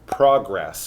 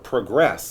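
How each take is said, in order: First: The stress is on the first syllable. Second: The stress is on the second syllable. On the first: It is the noun. The speaker calls it wrong. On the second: It is the verb. The speaker calls it right.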